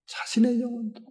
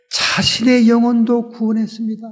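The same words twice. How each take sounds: First: Soft echo. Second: Said in the usual way. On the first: Acted. Preacher echoes phrase, softly.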